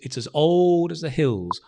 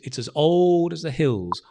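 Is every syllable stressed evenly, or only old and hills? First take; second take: old, hills; old, hills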